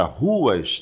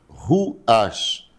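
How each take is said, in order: First: Said in the usual way. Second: "Ruas" broken into two beats, ru, as; split into syllables. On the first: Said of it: "tem duas sílabas". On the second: Shown as a demonstration. Teacher showing pupils the two syllables, "Ruas" split as ru-as. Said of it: "ruas tem duas sílabas".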